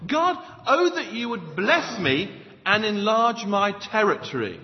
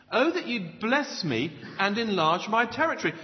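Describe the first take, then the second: First: Desperate cry to God. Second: Said in the usual way. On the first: Acted. Preacher acting Jabez crying out to God, urgent raised plea. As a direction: cry it out like an acted desperate prayer. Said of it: "He cried out to God".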